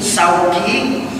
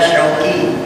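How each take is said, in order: First: The name begins with an 's' sound. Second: The name begins with an 'sh' sound. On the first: The name means market. The speaker calls it wrong. "kalau orang nyebutnya menggunakan sin" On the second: The name means longing. The speaker calls it right. "Kalau menggunakan huruf shin, maka arti nama saya kerinduan"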